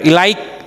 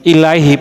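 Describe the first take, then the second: First: The word ends with a k sound. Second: The word ends with a soft h sound. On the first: The speaker calls it wrong. "bukan ilaik" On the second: The speaker calls it right. "ilaih Pak ya, ... pakai hak ya"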